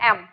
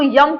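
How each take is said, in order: First: The letter name begins with a plain vowel. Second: The letter name begins with a y sound. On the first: The speaker calls it right. "आप इसको बोलते क्या हो" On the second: The speaker calls it wrong. "वो गलत है"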